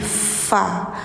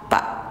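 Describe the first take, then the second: First: It starts with a flowing f sound. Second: It starts with a closed-lip p sound. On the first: The speaker calls it right. "fa ada nafas mengalir, gigi atas nempel bibir bawah" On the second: The speaker calls it wrong. "jangan pak pak"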